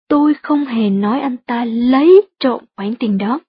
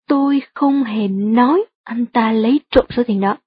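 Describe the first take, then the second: First: The stress falls on the words lấy trộm. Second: The stress falls on the word nói. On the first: He only borrowed the money rather than stealing it. "Bạn cũng có thể nhấn giọng ở từ lấy trộm" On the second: The speaker implied it but never actually said it. "Nếu bạn nhấn mạnh từ nói trong câu"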